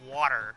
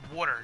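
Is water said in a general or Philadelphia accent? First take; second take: general; Philadelphia. First: The word is said in a general accent. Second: The word is said in a Philadelphia accent. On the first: The speaker calls it wrong. "not uh" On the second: The speaker calls it right. "I pronounce it as water"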